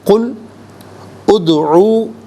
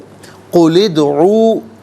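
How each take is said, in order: First: The two words are said separately. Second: The two words run together as one. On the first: "हर कलमे को अलहदा" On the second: "मिलाकर पढ़ने की सूरत में"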